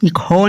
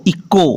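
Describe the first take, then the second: First: "इको" said as ikho, with a breath after k; wrongly sounded H. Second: "इको" with a plain k sound; silent H. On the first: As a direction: puff an h into "इको". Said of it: "नहीं पढ़ना". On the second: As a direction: say "इको" with no puff after the k. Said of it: "इको नहीं पढ़ना". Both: Shown as a demonstration.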